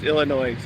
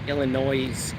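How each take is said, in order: First: The final S is not pronounced at all. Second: The final S is pronounced at the end. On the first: The speaker calls it right. "You don't pronounce the S on the end, it's just Illinois" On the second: The speaker calls it wrong. "call it Illinois with an S"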